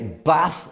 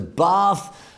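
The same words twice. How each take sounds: First: It is said with a Yorkshire pronunciation. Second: It is said with a non-Yorkshire pronunciation. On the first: "in Yorkshire we say Bath" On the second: "as opposed to Bath"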